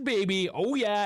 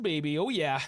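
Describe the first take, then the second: First: Higher and louder, gloating over the stats; gloating cheer. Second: Said in the usual way. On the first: Real, not acted. To his stream, gloating over possession stats, excited cheer. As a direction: crow it like a proud fan.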